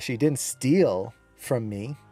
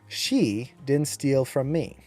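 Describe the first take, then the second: First: The stress falls on the word steal. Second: The stress falls on the word she. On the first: She did something else, not stealing. "She did something else, just didn't steal" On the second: Someone else stole from me. "you'll notice how I accented she"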